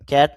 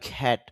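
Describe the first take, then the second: First: The first k sound has no puff of air. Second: The first k sound has a puff of air. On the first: The speaker calls it wrong. "ক্যাট না বলে" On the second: The speaker calls it right. "খ্যাট বলবো"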